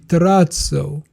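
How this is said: The word is said with an Italian pronunciation. The speaker calls it right. "the right way to pronounce it is actually terrazzo because it's originally Italian"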